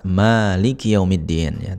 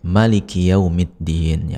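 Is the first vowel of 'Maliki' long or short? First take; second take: long; short. First: The first vowel of Maliki is drawn out long. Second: The first vowel of Maliki is kept short. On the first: "dibaca dengan mat" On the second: "dibaca dengan pendek"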